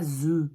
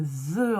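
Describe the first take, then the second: First: "the" wrongly said as "zeu"; French Z for TH. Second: "the" with a voiced English th, held. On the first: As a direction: say "the" with a buzzing Z, French style. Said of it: "C'est pas the". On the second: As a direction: say "the" with tongue between the teeth. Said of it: "Le the anglais". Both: Shown as a demonstration.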